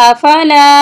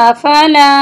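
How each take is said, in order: Both takes have the same delivery.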